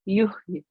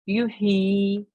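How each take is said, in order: First: The final ya is clipped with no vowel. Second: The final vowel is drawn out long. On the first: "kasra becomes ya sakin" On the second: "as if the ya was a ya mad"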